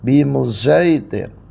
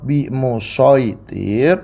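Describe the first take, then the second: First: The s sound is blended toward z. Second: The s sound is the emphatic sad. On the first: "diismamkan, shadnya ke za" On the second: "Yang pertama dibaca dengan biasa, shad"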